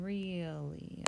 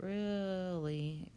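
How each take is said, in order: First: "really" slowly as real-ly, long e; careful pronunciation. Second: "really" drawn out as rilly; careless pronunciation. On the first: Teacher correcting what we're saying, careful slow "really" as real-ly. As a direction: say "really" as real plus lee. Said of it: "Be careful what we're saying". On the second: Teacher warning about a common error, drawn-out "really" as rilly. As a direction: stretch "really" with a short i, rill-ee. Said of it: "It kinda sounds that way". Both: Shown as a demonstration.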